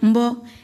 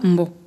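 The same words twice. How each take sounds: First: The word is said on a mid tone. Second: The word is said on a low tone. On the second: "On a un ton bas"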